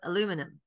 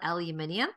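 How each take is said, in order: First: It is said the American way, four syllables. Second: It is said the non-American way, five syllables.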